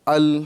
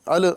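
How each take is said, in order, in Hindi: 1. L स्थिर रहता है, उसमें कोई उछाल नहीं होती। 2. L के अंत में गूँजती हुई उछाल होती है। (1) "बल्कि अल हय्युल" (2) "अल अल अल नहीं कहेंगे"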